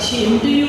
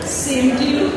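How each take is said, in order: First: The first word starts with an sh sound. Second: The first word starts with an s sound. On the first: It sounds like an insult instead of a greeting. The speaker calls it wrong. "सर शाह का अगर पलट कर लिया तो अर्थ का अनर्थ हो गया" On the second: It returns the good wishes. The speaker calls it right. "उनको क्या बोलना था?"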